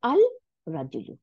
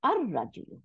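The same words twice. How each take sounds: First: আল রাজুলু with the L sounded, then a break; unassimilated article. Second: আর রাজুলু with L silent, R doubled; joined-up আর রাজুলু, no L; assimilated lam. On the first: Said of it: "এটা হয়ে যাবে আর রাজুলু". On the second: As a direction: roll আর straight into রাজুলু on a long R. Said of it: "এটা হয়ে যাবে". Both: Shown as a demonstration.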